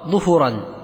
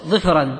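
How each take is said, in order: First: Both vowels are u. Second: Both vowels are i. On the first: "أو بضم" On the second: "أو كسر"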